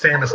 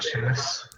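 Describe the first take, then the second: First: The name begins with a short 'sam' sound. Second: The name begins with a 'shay' sound. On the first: The speaker calls it right. "it's Samus" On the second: The speaker calls it wrong. "not Seamus"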